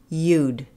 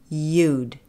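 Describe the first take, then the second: The two takes are said the same way.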